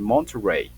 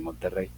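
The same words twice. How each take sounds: First: It is said with an English-speaker's accent. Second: It is said with a native Spanish pronunciation. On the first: The speaker calls it wrong. "no imiten algo extraño como decir Monterrey" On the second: The speaker calls it right. "Nosotros sabemos decir Monterrey, pues di Monterrey"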